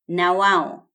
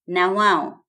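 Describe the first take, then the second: No difference in how they are said.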